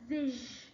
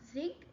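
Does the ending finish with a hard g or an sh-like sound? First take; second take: sh-like sound; hard g. First: The ending finishes with a soft sh-like sound. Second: The ending finishes with a hard g sound. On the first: The speaker calls it right. "it's pronounced as zish" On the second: The speaker calls it wrong. "it's not zig"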